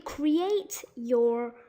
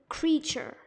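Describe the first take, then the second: First: The middle consonant is a plain t sound. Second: The middle consonant is a ch sound. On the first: The speaker calls it wrong. "We might be wondering if it's really" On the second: The speaker calls it right. "That T is kind of formed into the ch ch sound"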